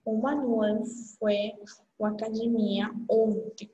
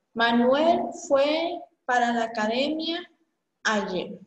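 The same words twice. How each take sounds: First: Said in the usual way. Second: A Spanish-accented sentence read out slowly. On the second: Shown as a demonstration. Teacher reading the Spanish sentence to students, Spanish accent. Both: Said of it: "estudantes que eu leio uma oração".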